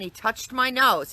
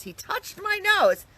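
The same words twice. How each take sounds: First: Said in the usual way. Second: TOUCHED leaps up high, slow and incredulous; amazed emphasis. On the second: Real, not acted. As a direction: repeat it slower, pitching TOUCHED way up.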